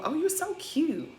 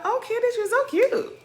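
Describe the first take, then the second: First: Higher, slow, sugary mock greeting; mocking sweet gush. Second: Much higher, sing-song fake gush; mocking fake-sweet coo. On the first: Mocking Robin's fake sweetness to Sierra, high and slow. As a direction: coo it like a fake-nice friend. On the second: Mocking Robin gushing at Candace, much higher. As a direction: squeal it like a two-faced friend.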